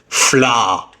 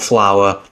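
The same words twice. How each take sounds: First: The word sounds like 'flah', with one open vowel. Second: The word sounds like 'flower', with two vowel sounds. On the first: "Or as my mum calls it, ... She pronounced it as fla, like F L A" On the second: "We need more flour"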